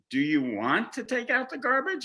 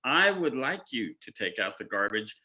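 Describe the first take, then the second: First: Asked much higher, lilting; mock tentative question. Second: Said in the usual way. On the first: Wife asking husband about garbage, higher questioning lilt. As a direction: dangle it as an option. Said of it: "But if you ask me". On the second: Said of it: "remember we talked about self-responsible".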